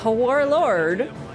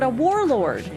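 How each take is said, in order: First: The word starts with an added breathy h sound. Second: The word starts with a plain w sound. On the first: "I just enunciated the absent H to be dramatic" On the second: "not a whorelord, a warlord"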